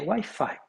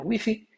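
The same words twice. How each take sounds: First: It is pronounced the English way. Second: It is pronounced the Spanish way. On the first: "seguindo as normas da língua inglesa" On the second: "na Espanha, Wi-Fi"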